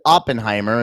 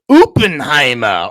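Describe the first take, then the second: First: The name is said in an American accent. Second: The name is said in a non-American accent.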